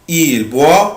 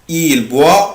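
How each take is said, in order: No difference in how they are said.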